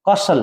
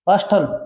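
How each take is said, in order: First: The s runs straight into the l. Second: A t sound is heard after the s. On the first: The speaker calls it right. "इसमें टी silent होता है" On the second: The speaker calls it wrong. "कास्टल नहीं"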